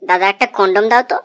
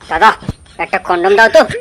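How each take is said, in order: First: The sentence is said quietly and softly. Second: The sentence is said in a loud voice. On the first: "এত আসতে বললে হবে না" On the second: "জোর গলায় বলতে হবে"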